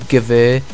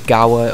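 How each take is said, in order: First: The word is said with a German pronunciation. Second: The word is said with an English pronunciation. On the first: "I'm trying to pronounce it in German there. I, be I believe it is Gewehr" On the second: "a lot of people just call it the Gauer or something like that"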